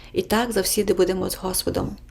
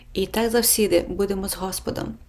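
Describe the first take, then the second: The two takes are said the same way.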